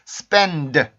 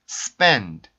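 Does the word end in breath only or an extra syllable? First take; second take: extra syllable; breath only. First: The final consonant is voiced, adding an extra syllable. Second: The final consonant is only a soft puff of air. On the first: The speaker calls it wrong. "이런 식으로 발음하면 음절이 하나 생겨버리거든요" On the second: The speaker calls it right. "성대 울림 소리를 뺀 순수 공기만"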